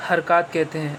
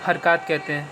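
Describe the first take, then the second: No difference in how they are said.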